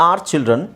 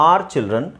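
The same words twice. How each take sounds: Both takes have the same delivery.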